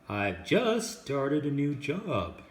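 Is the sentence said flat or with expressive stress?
expressive. It is said expressively, with key words stressed. The speaker calls it right. "It sounds more human that way"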